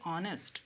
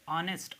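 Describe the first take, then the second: First: The h sound at the start is silent. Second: The same.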